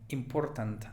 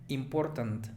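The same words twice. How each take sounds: Both takes have the same delivery.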